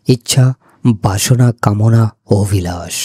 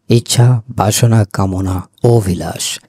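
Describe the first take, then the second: No difference in how they are said.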